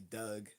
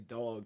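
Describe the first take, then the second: First: The vowel is a short 'uh' sound. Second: The vowel is an open 'aw' sound. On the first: "they say Doug" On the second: "they don't say dog"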